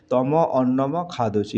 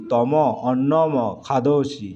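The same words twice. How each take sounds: First: Said in the usual way. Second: Slowly and clearly, like a teacher dictating; slow careful dictation. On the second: Shown as a demonstration. Teacher reading Sanskrit to students, slow and deliberate. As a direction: spell each word out slowly for the class. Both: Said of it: "এটা মানে কি?".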